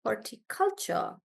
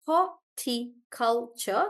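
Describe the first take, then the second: First: Horticulture with CUL as the strong beat, softer; stress on CUL. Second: Horticulture slowly split into four beats; syllable by syllable. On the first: Teacher checking for herself, softer horticulture stressed on CUL. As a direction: lean on CUL in horticulture, quietly. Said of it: "I think that's how it is". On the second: Teacher sounding it out for Rohan, slow syllabled horticulture. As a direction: space out each syllable of horticulture. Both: Shown as a demonstration.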